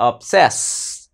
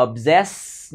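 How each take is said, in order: First: "obsess" with a hissed s, like ob-SESS; correct s sound. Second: "obsess" said with a buzzed z, like ob-ZESS; wrong z sound. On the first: Teacher correcting the word for learners, correct s sound. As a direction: keep the s of "obsess" voiceless. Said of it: "Nó là âm sờ cho nên là sess". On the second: Teacher warning learners off a mistake, wrong z sound. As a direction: voice the first s of "obsess" into a z. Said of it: "chứ không phải là obsess nha". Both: Shown as a demonstration.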